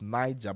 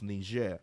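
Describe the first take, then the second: First: The name has an English-style pronunciation. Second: The name has a French-style pronunciation. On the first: The speaker calls it wrong. "Some people pronounce it as Niger" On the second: The speaker calls it right. "but it's Niger. Yes, it's I think pronounced French"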